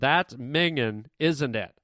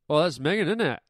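First: It is said slowly, each sound drawn out. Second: It is said fast, squeezing the word together.

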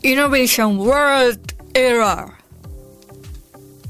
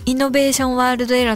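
First: It is said with an American English accent. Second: It is said in plain Japanese katakana style.

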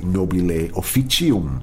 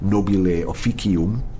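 First: It is said with Church Latin pronunciation. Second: It is said with Classical Latin pronunciation. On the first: "but Church Latin would be" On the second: "Classical Latin would have been"

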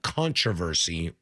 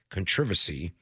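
First: The word is said with an American pronunciation. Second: The word is said with a British pronunciation.

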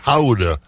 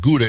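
First: It is said with a Dutch pronunciation. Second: It is said with an English pronunciation. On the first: The speaker calls it right. "If you're a Netherlander, Dutchland, like Marika, it's Gouda" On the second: The speaker calls it wrong. "It's not Gouda"

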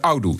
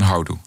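First: The word starts without an h sound. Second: The word starts with an h sound. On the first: "in West-Brabant zeggen ze oudoe" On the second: "in plaats van houdoe"

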